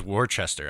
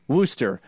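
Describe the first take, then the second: First: "Worcester" said as WOR-chester; "Worcester" misread as spelled, WOR-chester; mistaken pronunciation. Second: "Worcester" said as WOO-ster; "Worcester" as wooster, no CH; corrected pronunciation. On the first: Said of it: "I thought it was". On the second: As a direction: say "Worcester" in two syllables, Wu as in Wu-Tang. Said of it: "as in, like, Wu". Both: Shown as a demonstration.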